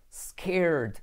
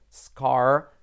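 First: Scared with the vowel of air and a falling end; scared said like air, with a drop. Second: Scar with an open a and a rising end; short scar. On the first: (scared con el sonido de air) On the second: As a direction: say scar briefly and firmly. (scar corto con a abierta) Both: Shown as a demonstration.

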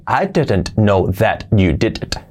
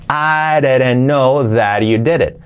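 First: Slow, every t and d pronounced; word by word. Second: "areren no that you deret", slow and joined; linked pronunciation. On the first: Teacher shows how nadie habla así, word by word. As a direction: carefully separate each word, no linking. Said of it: "nadie habla así". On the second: Teacher applies the rules, linked pronunciation. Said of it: "Aplicando esto". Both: Shown as a demonstration.

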